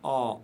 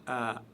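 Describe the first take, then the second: First: The vowel sounds heavy and dark. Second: The vowel sounds light and thin. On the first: The speaker calls it right. "toujours prononcées de manière lourde" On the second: The speaker calls it wrong. "et non pas"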